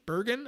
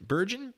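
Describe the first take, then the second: First: Bergen with a G as in get, questioning; hard G. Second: Bergen with a J sound for the G, questioning; soft G. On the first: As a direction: try Bergen with a hard G, rising. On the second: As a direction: try Bergen as "Berjen", rising. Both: Shown as a demonstration. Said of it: "I'm going with Bergen".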